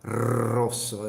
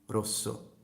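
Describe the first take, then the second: First: The initial R is rolled heavily and long. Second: The initial R is rolled lightly and briefly. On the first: The speaker calls it wrong. "I don't go like Rosso. It's too much" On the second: The speaker calls it right. "So I don't exaggerate it"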